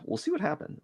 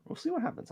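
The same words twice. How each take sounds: First: Said in the usual way. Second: Much higher, softer, in a sing-song; squeaky high repeat. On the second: Pretend. Repeating herself about the drawing, in a squeaky high voice. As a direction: echo yourself in a tiny high voice.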